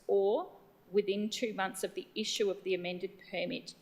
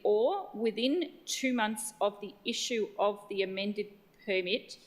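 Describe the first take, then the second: First: It is said at a fast pace. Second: It is said at a slow pace.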